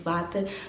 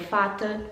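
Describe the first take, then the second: First: The word begins with a v sound. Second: The word begins with an f sound. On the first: This is how it is written. "você escreve tipo" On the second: This is how it is actually said. "Tem som de F"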